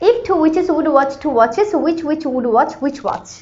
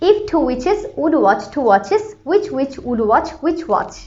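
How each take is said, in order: First: It is said at a faster pace. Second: It is said at a slower pace.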